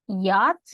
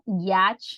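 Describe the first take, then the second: First: The word begins with a soft y sound. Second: The word begins with a hard ch sound. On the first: The speaker calls it right. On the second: The speaker calls it wrong.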